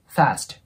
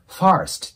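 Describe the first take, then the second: First: The vowel is plain with no r sound. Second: The vowel has an added r sound. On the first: The speaker calls it right. "R の音を入れずにR とA の中間音で" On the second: The speaker calls it wrong. "fast っていう感じでR の音を入れられる方がいる"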